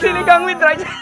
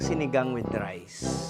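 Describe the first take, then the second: First: It is said laughing, as if being tickled. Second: It is said calmly, without laughing.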